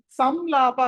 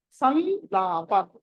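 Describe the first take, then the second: First: సంలాప with a closed-lip m, sam-laa-pa; wrong m sound. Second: సంలాప very slow, nasal n held into a long laa; correct nasal anusvara. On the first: Teacher showing students the mistake, సంలాప with an m. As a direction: say సంలాప with a plain m before laa. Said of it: "సంలాప కాదు". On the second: Teacher correcting students, సంలాప with a slow held n. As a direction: draw out సంలాప as san-laa-pa. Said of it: "అని పలకాలి". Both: Shown as a demonstration.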